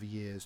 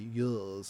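First: It is said in an ordinary everyday pronunciation. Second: It is said in an old BBC-style pronunciation. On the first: "instead of years" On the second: "that's the way the BBC say years"

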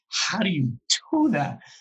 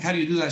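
First: It sounds incredulous and overwhelmed. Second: It sounds eager, as if asking to be shown.

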